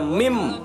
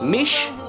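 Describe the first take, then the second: First: It ends in an m sound. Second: It ends in an sh sound. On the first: "bukan juga mim" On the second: "bukan mish"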